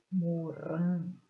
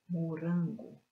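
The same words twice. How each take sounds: First: Morango drawn out slowly, RAN loud and long; stress on RAN. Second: Said in the usual way. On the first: Shown as a demonstration. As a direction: punch and stretch the RAN in morango. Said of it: "estas sílabas que estão destacadas são as sílabas". (morango devagar, com força no RAN) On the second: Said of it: "pronuncio a sílaba com mais força".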